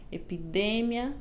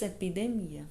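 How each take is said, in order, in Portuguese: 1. A palavra tem a acentuação do espanhol. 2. A palavra tem a acentuação do português. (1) "isso em espanhol" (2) "Em português"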